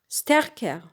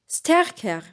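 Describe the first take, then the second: The two takes are said the same way.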